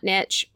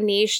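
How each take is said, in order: First: The word is said the plain way. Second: The word is said the fancy way. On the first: "not niche" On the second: "I like the fancy version"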